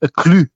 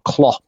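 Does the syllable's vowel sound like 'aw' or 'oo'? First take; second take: oo; aw. First: The vowel sounds like 'oo'. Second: The vowel sounds like 'aw'. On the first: The speaker calls it right. "it's more of a klu" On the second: The speaker calls it wrong. "as opposed to a claw"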